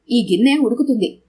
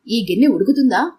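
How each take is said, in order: First: ఈ గిన్నె ఉడుకుతుంది with గిన్నె stressed and a falling statement tune; settled answer. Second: ఈ గిన్నె ఉడుకుతుందా with గిన్నె stressed and a rising question tune; asking question. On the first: (గిన్నె మీద ఒత్తి, చివర స్వరం దించుతూ ఇచ్చే జవాబు) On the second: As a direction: ask whether ఈ గిన్నె ఉడుకుతుందా, voice lifting at the end. (గిన్నె మీద ఒత్తి, చివర స్వరం పైకి లేపుతూ అడిగే ప్రశ్న) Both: Acted.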